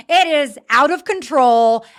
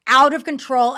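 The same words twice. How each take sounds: First: "It is out of control" slow and louder, each word hit; emphatic exasperation. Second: Said in the usual way. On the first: Shown as a demonstration. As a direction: pound out "It is out of control".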